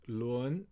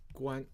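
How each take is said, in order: First: The syllable is pronounced lun. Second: The syllable is pronounced guan. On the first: "another pronunciation is 伦" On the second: It refers to a kind of headscarf. "so this is 关"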